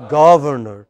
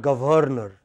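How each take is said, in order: First: "governor" as GUV-er-ner, stress on the first; loud GUV opening "governor"; correct pronunciation. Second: "governor" as guh-VER-ner, stress on the middle; wrong pronunciation. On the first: Teacher gives class the right form, correct pronunciation. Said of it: "The correct pronunciation is". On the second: Teacher contrasts the mistake, wrong pronunciation. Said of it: "not governor". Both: Shown as a demonstration.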